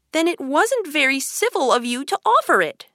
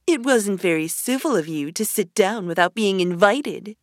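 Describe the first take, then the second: First: Put-on high-pitched, mildly angry girl. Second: Lightly voiced hare, close to the narrator's pitch; March Hare retort. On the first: Alice rebuking the March Hare over lemonade, mildly angry. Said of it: "said Alice angrily". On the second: Hare retorting to uninvited Alice, lightly voiced. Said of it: "said the March Hare". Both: A narrator's reading.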